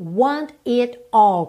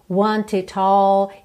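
First: Each word is said separately with a clear T. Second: The words run together through a linked T. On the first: "ela não junta T" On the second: "ela não fala want it all"

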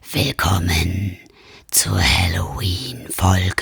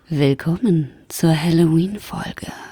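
First: It is said in a creepy, spooky voice. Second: It is said in a seductive vampire voice. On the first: "Sag es doch gruseliger" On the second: "Oder wie ein Vampir sagen würde"

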